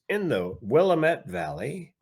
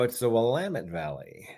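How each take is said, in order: First: It is pronounced the way an outsider would. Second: It is pronounced the way locals say it. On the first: The speaker is not from the area. The speaker calls it wrong. "the woman they got to do the voiceover, she goes" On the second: The speaker is from the area. The speaker calls it right. "If you're local"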